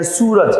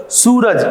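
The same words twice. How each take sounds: First: Said in the usual way. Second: Suraj with the long ऊ pressed hard and high; teacher demonstrates the long ऊ in Suraj, pressing it harder; stressed long oo. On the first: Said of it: "सूरज में बड़ा ऊ की मात्रा". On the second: Shown as a demonstration. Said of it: "जोर दिया जा रहा है".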